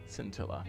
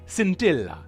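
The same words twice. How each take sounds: First: It is said in a plain English accent. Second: It is said in an Italian accent.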